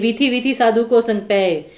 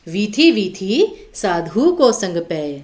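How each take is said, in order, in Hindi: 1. पंक्ति बिना किसी विराम के आगे चलती है। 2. प्रारंभिक 'vidhi vidhi' के बाद हल्का सा विराम आता है। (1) "ऐसे नहीं बोलेंगे" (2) "इसके बाद हल्का सा विराम लेना है"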